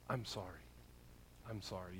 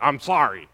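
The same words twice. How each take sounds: First: Very soft, low, heartfelt apology; sincere apology. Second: Loud mock apology from a kid; grudging child apology. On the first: Acted. Parent apologizing to a child after blowing it, soft and sincere. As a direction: say it gently and mean it, voice dropped. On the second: Kid made to apologize by a parent, grudging mock apology. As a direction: play a child forced to say it without meaning it. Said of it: "And they're like".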